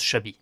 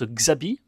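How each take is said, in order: First: The name starts with a 'sh' sound. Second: The name starts with a sound other than 'sh'. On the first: This follows the name's Basque origin. "pour moi, ça se prononce Chabi" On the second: This is how the book's author says the name. "l'autrice Claire Duvivier prononce Xabi"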